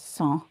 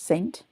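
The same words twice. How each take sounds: First: It is said with a French pronunciation. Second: It is said with an English pronunciation. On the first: "in French is saint" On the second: "in English saint"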